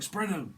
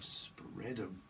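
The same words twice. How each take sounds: First: High, loud command; mock order. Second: Soft, drawn-out delivery; low-key suggestive take. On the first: Someone getting arrested is told, mock loud order. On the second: Acted. Someone to a lover instead of an arrest, softly suggestive. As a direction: say it quietly, stretching the words.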